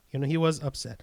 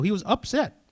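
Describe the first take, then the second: First: Said in the usual way. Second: Pitched-up upset. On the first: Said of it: "So he was upset". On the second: Shown as a demonstration.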